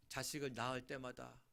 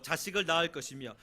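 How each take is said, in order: First: Said in the usual way. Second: Scripture reading. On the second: Acted. Loud scripture reading of the phrase.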